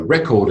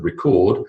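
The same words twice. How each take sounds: First: First "record" stressed on the first syllable; noun stress on "record". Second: Last "record" stressed on the second syllable; verb stress on "record". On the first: Teacher sums up heteronyms, first-syllable stress on "record". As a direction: say "record" as REK-ord. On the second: Teacher sums up heteronyms, second-syllable stress on "record". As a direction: say "record" as ri-KORD. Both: Shown as a demonstration. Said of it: "different word emphasis".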